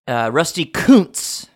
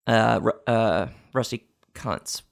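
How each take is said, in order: First: The surname has a long 'oo' vowel. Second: The surname has a short 'uh' vowel. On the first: This is how the name is really pronounced. The speaker calls it right. "it's pronounced Koontz" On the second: This is how a reader would guess from the spelling. The speaker calls it wrong. "which is how it's spelled and how you would think it was spelled"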